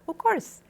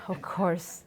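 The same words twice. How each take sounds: First: It is said in a willing, agreeable tone. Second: It is said in a tired, weary tone. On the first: The speaker is glad to help. "you're willing to do that" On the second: The speaker is fed up with repeated requests. "you're so tired"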